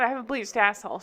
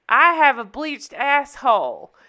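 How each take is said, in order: First: Lighter, quicker imitated Southern accent. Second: Loud, drawn-out mock Southern accent. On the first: Showing how the character says it, understated Southern accent. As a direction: toss it off with a mild Southern twang. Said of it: "she kinda says it like that". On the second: Friend cutting off guys at the club, loud Southern accent. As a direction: announce it loudly with a slow Southern twang. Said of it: "I'm giving her a southern accent".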